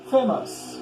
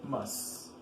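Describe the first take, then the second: First: Said in the usual way. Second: Famous slowly broken into two beats; split in syllables. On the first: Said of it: "How many syllables?". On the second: Shown as a demonstration. Teacher showing the word has two syllables, syllable by syllable. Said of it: "Two syllables".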